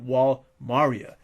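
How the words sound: The name is said with a Japanese pronunciation. The speaker calls it wrong. "defer to the Japanese pronunciation"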